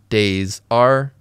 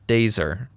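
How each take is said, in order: First: The two words are said separately. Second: The two words blend, with are reduced to er.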